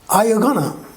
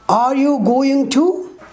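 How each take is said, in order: First: Going to is shortened and run together. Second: Every word is said fully and separately.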